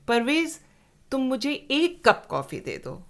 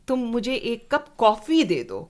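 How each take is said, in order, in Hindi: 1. 'एक' शब्द ज़ोर देकर बोला गया है। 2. 'कॉफ़ी' शब्द ज़ोर देकर बोला गया है। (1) "दो मत लाना।" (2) "कॉफ़ी ही देना, चाय मत देना।"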